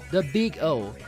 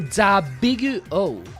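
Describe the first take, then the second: First: It is said with an English pronunciation. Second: It is said with a Japanese pronunciation.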